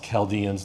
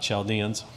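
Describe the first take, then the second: First: The word begins with a hard k sound. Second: The word begins with a soft ch sound. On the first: The speaker calls it right. "it's pronounced Chaldeans" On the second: The speaker calls it wrong. "not Chaldeans"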